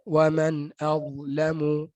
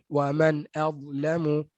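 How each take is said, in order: First: The hamzah is said thin and light. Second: The hamzah is said thin and light.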